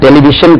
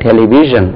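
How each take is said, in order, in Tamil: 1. நடுவில் உள்ள மெய்யெழுத்து குரலற்ற 'sh' ஒலி. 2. நடுவில் உள்ள மெய்யெழுத்து குரலுள்ள 'zh' ஒலி. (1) "இந்த ஷா கிடையாது, டெலிவிஷன் கிடையாதுங்க" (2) "ஜா ஜா டெலிவிஷன்"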